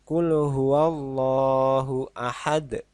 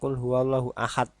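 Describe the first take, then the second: First: The final d is released with a heavy bounce. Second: The final d stops without any bounce. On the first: The speaker calls it right. "Kalau ini ada tekanannya" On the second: The speaker calls it wrong. "Jadi bukan ... itu kurang tepat"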